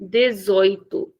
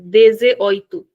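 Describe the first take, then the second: First: Dezoito slow, dez running into oito; slow, unbroken dezoito; one smooth word. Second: Dezoito with an extra e, dez-e-oito; wrong split. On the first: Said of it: "it is a single word". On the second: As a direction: show the wrong broken version. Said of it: "nobody should pronounce it like". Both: Shown as a demonstration.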